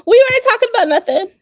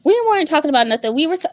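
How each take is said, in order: First: High, fast shouted denial; loud playful denial. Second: Fast, loud repeat of the denial; loud playful denial. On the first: Shouting to her sister that they weren't talking, loud protest. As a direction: yell it fast and high, all innocence. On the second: Insisting to her sister they weren't talking, loud repeat. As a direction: call it again quick and loud. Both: Real, not acted.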